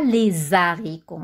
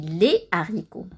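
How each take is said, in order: First: A z sound links les to haricots. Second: No z sound links les to haricots. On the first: The speaker calls it wrong. "On ne dit pas les haricots" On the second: The speaker calls it right. "on dit les haricots"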